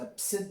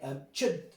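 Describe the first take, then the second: First: The middle consonant is an s sound. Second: The middle consonant is a ch sound. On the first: "if you pronounce the C like a C" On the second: "in Old English, this was pronounced ch"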